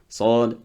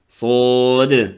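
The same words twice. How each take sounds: First: The final d ends flat, without a bounce. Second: The final d ends with an echoing bounce. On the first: The speaker calls it wrong. "Il y en a qui arrivent ici, te disent Sad, Dad. Non" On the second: The speaker calls it right. "ça se termine avec le qalqala sur le del"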